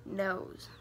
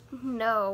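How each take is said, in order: First: "nose" ending in a clear buzzing z; "nose" said low and deliberate. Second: "no" with no final z sound; "no" cut off before the z; no, not nose. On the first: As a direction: land the final z of "nose" firmly. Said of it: "like the". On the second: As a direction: say "no" as a plain open vowel, no ending buzz. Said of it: "Not like the no". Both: Shown as a demonstration.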